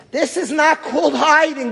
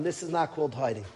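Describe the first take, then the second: First: "This is not called hiding" pitched higher, pressing hard; "This is not called hiding" said high and urgent; raised protest. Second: Much softer, drained repeat of "This is not called hiding"; "This is not called hiding" said quietly, spent; softly repeated. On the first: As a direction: insist "This is not called hiding" with rising heat. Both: Retold or imitated.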